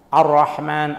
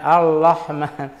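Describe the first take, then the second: First: The word is said with an r sound. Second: The word is said with an l sound.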